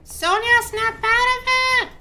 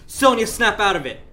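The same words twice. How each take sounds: First: It is said in a put-on old woman's voice. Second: It is said in the speaker's ordinary voice.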